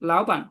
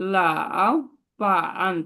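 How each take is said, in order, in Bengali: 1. প্রথম অক্ষরে আছে সেকেন্ড টোন, যা ওপরের দিকে ওঠে। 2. প্রথম অক্ষরে আছে থার্ড টোন, যা নিচে নেমে আবার ওপরে ওঠে। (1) "তাহলে এটা সেকেন্ড টোনে বলবো" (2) "যদি আমি এভাবে বলি লাউ পান, তাহলে সময় লাগবে না? এভাবে থার্ড টোনে বললে সময় লাগতেছে"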